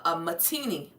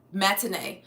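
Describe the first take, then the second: First: "matini" said as ma-TEE-nee; unsure mispronunciation. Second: "Matinee" said as mat-in-AY; corrected pronunciation. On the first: Streamer guesses at an unfamiliar word, "matini" ending in nee. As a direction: stumble onto "matini" with an ee ending. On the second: Streamer copies the word just looked up, "Matinee" ending in nay. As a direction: repeat "Matinee" carefully with an ay ending. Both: Real, not acted. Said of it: "How do you say this?".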